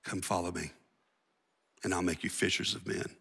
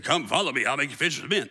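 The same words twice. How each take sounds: First: Much softer and lower, close and personal; soft, familiar invitation. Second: Said in the usual way. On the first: Retold or imitated. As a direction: invite old friends quietly. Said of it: "that dude shows up on the beach". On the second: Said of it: "He said".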